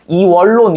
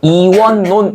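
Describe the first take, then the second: First: The middle consonants sound as a double L. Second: The middle consonants sound as a double N. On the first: The speaker calls it wrong. "원래 하면은 어떻게 해야 돼? 이원론 이렇게 해야 되지" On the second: The speaker calls it right. "실제로는 이원론 이렇게 발음한다"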